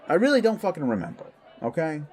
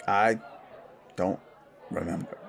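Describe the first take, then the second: First: High, rapid, exasperated burst; defensive outburst. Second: Halting reluctance. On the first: Pressed about his first transformation, defensively exasperated. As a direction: shut the question down, fast and raised. Snaps when pressed on painful memory. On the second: Asked about his first transformation, halting and reluctant. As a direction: force it out word by word, haltingly. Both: Acted.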